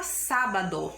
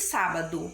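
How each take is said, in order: First: Sábado with a clear final o, sábadO; sábado pronounced just as it is written; sábado as spelled. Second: Sábado with the final o said as u, sábadu; sábado as Brazilians say it, closing to u; spoken sábado. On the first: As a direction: read sábado letter by letter, ending in open o. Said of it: "ela é escrita". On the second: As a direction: say sábado the everyday way, ending in u. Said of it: "nós dizemos". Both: Shown as a demonstration.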